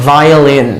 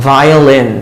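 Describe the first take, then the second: Both takes have the same delivery.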